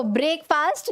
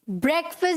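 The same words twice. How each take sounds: First: ब्रेकफास्ट said "brake-faast"; long vowels in both halves of ब्रेकफास्ट; wrong pronunciation. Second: ब्रेकफास्ट said "BREK-fust"; short vowels in both halves of ब्रेकफास्ट; correct pronunciation. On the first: Teacher showing students the error, ब्रेकफास्ट mispronounced as "brake-faast". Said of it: "ब्रेकफास्ट नहीं". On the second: Teacher modelling for students, ब्रेकफास्ट as "BREK-fust". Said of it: "आज से आप क्या बोलेंगे?". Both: Shown as a demonstration.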